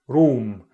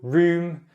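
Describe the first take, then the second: First: The vowel is a back rounded vowel. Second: The vowel is a central rounded vowel. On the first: "in R P, it was back" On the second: "In Standard Southern, it was central"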